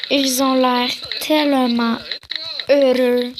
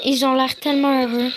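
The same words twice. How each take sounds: First: Slow drawn-out delivery. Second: Said in the usual way. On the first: Acted. Watching children play on the lawn, slow and drawn-out. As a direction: linger on "tellement", pause before "heureux". Same line redone stretched.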